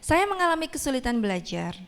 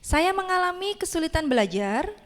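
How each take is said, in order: First: The voice falls at the end. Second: The voice rises at the end.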